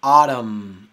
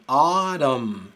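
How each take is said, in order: First: Autumn said loud, closing firmly on the M; Autumn with final M. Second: Autumn loud with no U sound at the start; Autumn, silent U. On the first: Teacher showing the silent N and the final M. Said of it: "con el sonido de M al final". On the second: Teacher showing the first U of Autumn is silent. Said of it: "la primera U". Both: Shown as a demonstration.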